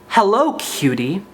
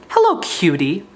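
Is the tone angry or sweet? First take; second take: angry; angry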